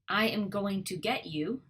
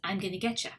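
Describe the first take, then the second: First: Every word is said fully, with no contraction. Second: The words are contracted and squeezed together.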